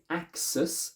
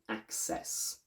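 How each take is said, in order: First: The last syllable is reduced to a schwa. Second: The last syllable has a full vowel. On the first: The speaker calls it wrong. "We don't say axis" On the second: The speaker calls it right. "this e is strong"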